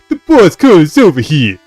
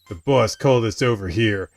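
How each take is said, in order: First: It is said in a put-on street-talk voice. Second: It is said in a plain reading voice.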